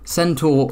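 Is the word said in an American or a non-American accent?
non-American. The word is said in a non-American accent.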